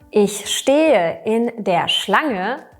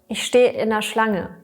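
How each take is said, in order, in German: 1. Präposition und Artikel werden voll gesprochen. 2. Präposition und Artikel werden zusammengezogen und verkürzt. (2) "sagen wir"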